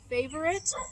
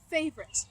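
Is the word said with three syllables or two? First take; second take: three; two. First: The word is said with three syllables. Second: The word is said with two syllables. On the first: "you can say it with three syllables" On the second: "or two"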